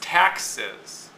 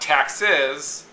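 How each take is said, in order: First: The stress is on the first syllable. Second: The stress is on the second syllable. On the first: The speaker calls it right. "The es is just a suffix. Tax is the base word" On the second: The speaker calls it wrong. "it's not taxes"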